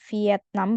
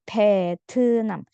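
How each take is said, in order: First: It is pronounced like the Indonesian word Vietnam. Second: It is pronounced like the Korean word Beteunam. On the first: The speaker calls it wrong. "bukan Vietnam bacanya" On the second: The speaker calls it right. "tapi Vietnam"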